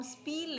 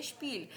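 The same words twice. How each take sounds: First: "स्पील" begun with a plain s; mispronounced "स्पील", s instead of sh; wrong S sound. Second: "स्पील" begun with sh, as shpeel; German "स्पील", opening on sh; correct SH sound. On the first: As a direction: say "स्पील" as speel, s as in sun. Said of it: "इसको हम स्पील नहीं बोलेंगे". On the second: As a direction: say "स्पील" with sh before the p. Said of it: "श के तौर पे pronounce". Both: Shown as a demonstration.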